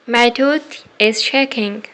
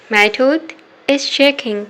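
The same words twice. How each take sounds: The two takes are said the same way.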